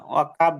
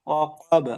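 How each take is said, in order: First: ওয়াকাব with a light front k; ওয়াকাব with kaf instead of qaf; mistaken kaf. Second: ওয়াকাব with a heavy back qaf; correct qaf. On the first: Retold or imitated. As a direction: show the wrong ওয়াকাব, thin k. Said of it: "যাতে না হয়". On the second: Shown as a demonstration. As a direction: model ওয়াকাব, rounded and heavy. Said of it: "ওয়াকাব যাতে না হয়".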